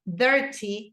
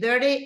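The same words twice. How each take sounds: First: It is said with a British accent. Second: It is said with an American accent. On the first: "it's British English" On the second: "it's in American English"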